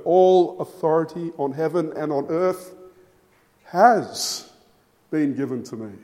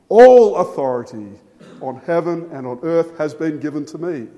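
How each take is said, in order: First: Second take shifting the weight from "All" to "has been"; stress on HAS BEEN. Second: "All" punched hard and loud, the rest settling down; first take leaning all the weight on "All"; stress on ALL. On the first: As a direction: lean on "has" and "been", with a pause after "has". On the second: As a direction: hit the word "All" with full force, then let it fall. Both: Shown as a demonstration. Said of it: "emphasizing a different word".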